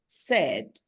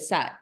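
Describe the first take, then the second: First: The vowel is like the one in bed. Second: The vowel is like the one in cat. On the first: The speaker calls it right. "In number two" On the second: The speaker calls it wrong. "You don't say sad, like cat"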